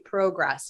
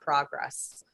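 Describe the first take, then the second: First: It is said with a Canadian pronunciation. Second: It is said with a non-Canadian pronunciation. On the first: "like the Canadians say. They call they say progress" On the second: "not progress"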